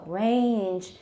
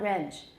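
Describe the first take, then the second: First: The word is drawn out long. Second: The word is said short and quick. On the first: The speaker calls it right. "It's very long" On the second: The speaker calls it wrong. "It's not range"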